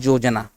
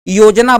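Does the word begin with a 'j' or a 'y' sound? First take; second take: j; y. First: The word begins with a 'j' sound. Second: The word begins with a 'y' sound. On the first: This is the Nagpuri form. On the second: This is the standard Hindi form.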